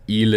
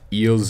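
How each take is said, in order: First: The final s is silent. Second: The final s is pronounced. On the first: The speaker calls it right. "it's il" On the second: The speaker calls it wrong. "it's not ils"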